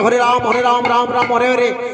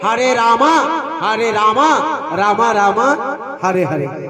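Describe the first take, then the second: First: It has a Bengali accent, saying Ram without final vowel. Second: It has an English accent, saying Rama with final vowel. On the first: This is how locals chant the name. "আমরা যে নাম জপ করি" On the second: This is how foreigners chant the name. "তাদের ইংরাজি উচ্চারণ"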